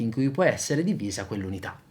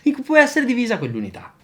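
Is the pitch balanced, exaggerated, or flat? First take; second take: balanced; exaggerated. First: The pitch varies in a moderate, natural way. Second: The pitch swings up and down excessively. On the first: The speaker calls it right. "Adesso faccio una cosa un po' più bilanciata" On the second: The speaker calls it wrong. "Adesso esagero con una modulazione dell'intonazione eccessiva"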